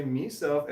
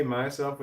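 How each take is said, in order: First: "meself", first syllable MEE, raised; "meself" pronunciation. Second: Said in the usual way. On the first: Shown as a demonstration. Asking which word she said, "meself" with an ee. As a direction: say "meself" with a long ee. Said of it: "or did she say". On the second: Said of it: "did she say".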